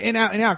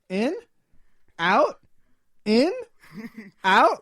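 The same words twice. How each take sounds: First: Each word falls like a statement. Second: Each word rises like a question.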